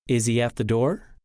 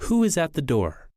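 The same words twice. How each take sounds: First: Low question climbing on "door"; rising intonation. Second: Wh-question with "door" dropping away; falling intonation. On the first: Teacher contrasting two question tunes, rising intonation. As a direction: keep it low, then lift "door" upward. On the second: Teacher contrasting two question tunes, falling intonation. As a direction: let the voice go down on "door". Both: Shown as a demonstration. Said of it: "Listen to the difference between rising and falling intonation".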